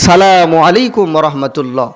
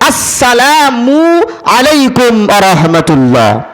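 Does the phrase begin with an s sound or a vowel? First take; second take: s sound; vowel. First: The phrase starts directly with an s sound. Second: The phrase starts with a clear opening vowel. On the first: The speaker calls it wrong. "অনেকেই বলে ... শুরুর হামজাও রইল না, মাঝখানে মিমের পেশও উচ্চারণ হইল না" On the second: The speaker calls it right. "পরিষ্কার শুদ্ধ বিশুদ্ধ উচ্চারণ করতে হবে"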